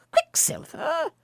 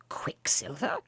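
First: Higher, slow, incredulous cry; astonished echo. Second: Unvoiced, wondering echo; whispered puzzlement. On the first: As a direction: cry the name out in wonder. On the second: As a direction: breathe the name in disbelief. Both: A narrator's reading. Philemon repeats the odd name.

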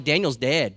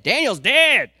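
First: Said in the usual way. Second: High, loud wailing cry of grief; lamenting wail. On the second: Retold or imitated. King mourning Daniel in the den, wailing high and loud. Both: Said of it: "So he's like".

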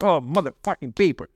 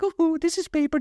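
First: Grumbled swearing in mild disgust; resentful. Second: Very high, airy mock politeness; mock delicate. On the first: Acted. Recycling while hating it, a mildly resentful curse. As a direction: curse it with weary hate. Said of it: "I go with that attitude". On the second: Showing how he does not recycle, very high mock-dainty voice. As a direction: parody a precious recycler in a tiny high voice. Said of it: "I'm not like".

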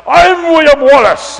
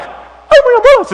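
First: Loud, slow, booming mock-heroic shout; huge giant hero. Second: Very high, loud tiny-man voice; little guy. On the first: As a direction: announce yourself like an enormous warrior. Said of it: "this huge giant of a man". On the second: Retold or imitated. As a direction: squeak it out like a mock-heroic little man. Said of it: "It's like this little guy".

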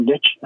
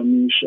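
First: Niche said as "nitch"; American pronunciation. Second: Niche said as "neesh"; British pronunciation. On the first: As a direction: say niche with a short i and tch, rhyming with pitch. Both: Shown as a demonstration. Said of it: "if you're in America".

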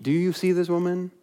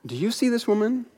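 First: Softer repeat, only slightly raised; Jesus repeating question. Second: Higher, softer, searching question; Jesus questioning host. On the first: Jesus driving the point home to his host, a softer repeat. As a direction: ask it again, quieter and more settled. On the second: Jesus turning from his host Simon to ask him, higher and softer. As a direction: lift the question so the host must look at her. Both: Retold or imitated.

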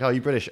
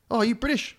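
First: Lightly imitated Kiwi waiter, a bit louder; toned-down retelling of the waiter's question; casual stranger asking, lightly voiced. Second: High-pitched hammed-up questioner, rising at the end; caricatured waiter's nosy question; exaggerated Kiwi waiter. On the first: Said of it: "He was a Kiwi". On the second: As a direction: put on an over-the-top stranger's voice, pitched way up. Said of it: "he didn't talk like that necessarily".

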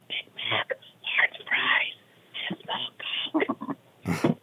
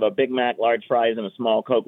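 First: Soft, voiceless library whisper; exaggerated whisper. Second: Said in the usual way. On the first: Customer apologizing to a librarian, hushed whisper. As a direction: whisper the order, spacing each item. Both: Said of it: "Ma'am, this is a library".

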